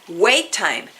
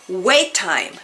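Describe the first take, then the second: No difference in how they are said.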